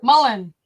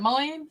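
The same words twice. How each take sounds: First: Mullen said firmly as "mull-en", louder with a falling close; corrected pronunciation. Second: Mullein said as "muh-leen" with a questioning rise; unsure pronunciation. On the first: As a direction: say Mullen as "mull-en", confident, ending down. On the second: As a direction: try Mullein as "muh-leen", tentative and rising. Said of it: "How do you say that?". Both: Shown as a demonstration.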